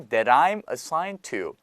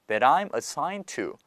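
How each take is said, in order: Both takes have the same delivery.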